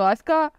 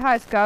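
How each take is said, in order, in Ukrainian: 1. Ім'я починається одразу з голосного. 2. Ім'я починається зі звуку h. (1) "а на французькою то що" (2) "українською воно нормально, якраз вимовляється"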